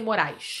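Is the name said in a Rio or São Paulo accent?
Rio. It is said with a Rio accent.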